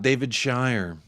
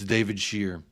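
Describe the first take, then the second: First: The surname rhymes with 'fire'. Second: The surname rhymes with 'fear'. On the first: The speaker calls it wrong. "not David Shire" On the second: The speaker calls it right. "It's David Shear"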